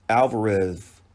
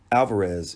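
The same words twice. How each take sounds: First: "Alvarez" slipping into a final "th" sound; mispronounced name. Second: "Alvarez" with a clear final "z" sound; corrected name. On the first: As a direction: say "Alvarez" with a lisped last consonant, as "Alvareth". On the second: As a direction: say "Alvarez" again ending on a buzzed z. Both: Real, not acted. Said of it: "excuse me".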